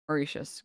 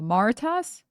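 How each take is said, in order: First: The word is said with an 'sh' sound. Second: The word is said without an 'sh' sound. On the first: The speaker calls it right. "it's pronounced with an S H" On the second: The speaker calls it wrong. "I definitely mispronounced that"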